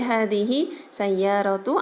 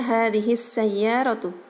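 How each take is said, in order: First: The words are said separately without the doubled s. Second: The words run together with the s doubled. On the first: The speaker calls it wrong. "Tidak boleh" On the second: The speaker calls it right. "harus diidgham syamsiahkan"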